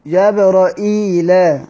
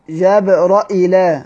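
First: جبرائيل drawn out slowly, hamza then a ya: jabra'il; جبرائيل stretched slowly, hamza and ya. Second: جبرائيل with a hamza and no ya after it; جبرائيل clearly spoken with hamza, no ya sound. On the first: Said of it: "بياء". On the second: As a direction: say جبرائيل as jabra'il, hamza then straight to l. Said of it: "بهمزة من غير ياء". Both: Shown as a demonstration.

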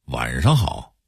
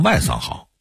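First: Said in the usual way. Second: "外桑好" with flat s for sh; Hong Kong-Taiwan pronunciation. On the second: Shown as a demonstration. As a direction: say "外桑好", high-pitched, s replacing the retroflex sh. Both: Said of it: "非要说成".

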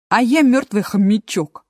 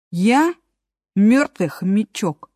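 First: Bright, chirpy hamster; cheerful. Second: Slow and welcoming; friendly. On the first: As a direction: say it briskly and cheerfully. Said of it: "бодро сказала существо". (бодро) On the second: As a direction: repeat it kindly, a touch slower. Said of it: "приветливо повторил мёртвый хомячок". (приветливо) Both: Acted.

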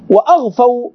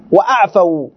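First: وأغفوا said with a ghain, the throaty gh sound; wrong reading with ghain. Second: وأعفوا said with a clear ain from the throat, not gh; correct reading with ain. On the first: Teacher reading the faulty manuscript word with ghain. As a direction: read it as وأغفوا with gh, the mistaken copy. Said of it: "هذا خطأ بالغين". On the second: Teacher giving students the correct word with ain. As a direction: read وأعفوا with ain, the right version. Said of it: "والصواب أعفوا". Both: Shown as a demonstration.

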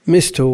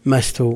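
First: Short i after the m in مست; kasra on the meem. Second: Short a after the m in مست; fatha on the meem. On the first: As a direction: say مست as "mistu", with one s. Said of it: "وتحويل كسرتها إلى الميم". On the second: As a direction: say مست as "mastu", with one s. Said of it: "يقر فتحها بحالها". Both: Shown as a demonstration.

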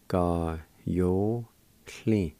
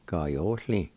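First: Ga yo hli very slowly, each syllable held. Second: Said in the usual way. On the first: Shown as a demonstration. Teacher repeating the word for meager, slow and broken up. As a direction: stretch out Ga, yo and hli with gaps between. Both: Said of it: "is pronounced like this".

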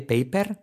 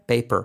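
First: "Paper" ending in Spanish "per", pitched high and rising; questioning, mispronounced "Paper" with Spanish R. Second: "paper" with curled final R, falling; corrected "paper" with American R. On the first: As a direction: tap the R in "Paper" as a Spaniard would. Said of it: "mal pronunciada". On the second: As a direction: curl the tongue up to end "paper". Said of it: "a una bien pronunciada". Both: Shown as a demonstration.

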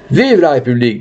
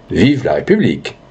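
First: Rallying political cry; lifted, ringing call of acclaim; crowd cheer. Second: Restrained, obliging repeat of the slogan; understated agreement with a voter; candidate's echo. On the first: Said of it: "dit une voix". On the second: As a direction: parrot the cheer back without its force. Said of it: "Le candidat répondit". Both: Acted.

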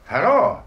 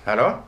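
First: Raised, louder call into the phone; calling into a dead line, voice lifted. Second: Said in the usual way. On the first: Acted. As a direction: call out again, louder and higher.

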